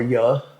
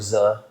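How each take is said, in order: First: The sound begins like an English y. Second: The sound begins like an English z. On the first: This is how southern speakers say it. "Southern accent is more yuh" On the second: This is how northern speakers say it. "Northern accent is more zuh"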